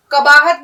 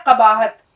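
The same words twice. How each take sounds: First: قباحت with plain front k, kabaahat; wrong pronunciation. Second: قباحت slowly with deep q, qabaahat; correct pronunciation. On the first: Teacher warning not to use kaf, قباحت as kabaahat. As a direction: say قباحت with ordinary k, punched. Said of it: "قباحت نہیں کہنا ہے". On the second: Teacher giving the right form, قباحت with throaty q. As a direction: start قباحت from the back of the throat. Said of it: "یہ ہے قباحت". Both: Shown as a demonstration.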